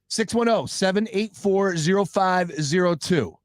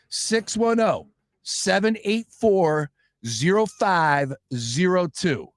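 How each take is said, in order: First: The number is read at normal speed. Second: The number is read slowly and carefully.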